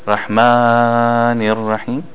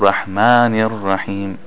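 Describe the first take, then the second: First: The vowel in Rahman is stretched too long. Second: The vowel in Rahman lasts two beats. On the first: The speaker calls it wrong. "it's too long" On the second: The speaker calls it right. "it's supposed to be only two beats"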